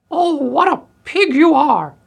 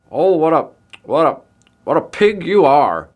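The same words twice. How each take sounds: First: Very high, loud shrieking voice; outraged old woman. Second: Loud, spluttering, raised voice; outraged candy maker. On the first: Old woman scolding the pig that ate her food, shrill screech. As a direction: screech it slowly in indignation. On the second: Candy maker scolding the pig that ate his treats, spluttering outrage. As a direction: stammer it out indignantly, slowing at the end. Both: A narrator's reading.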